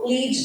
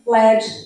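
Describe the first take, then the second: First: The vowel is long, rhyming with 'need'. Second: The vowel is short, rhyming with 'bed'. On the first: It means to guide. "lead, the verb, where you guide" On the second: It means the metal. "led, the noun for the metal"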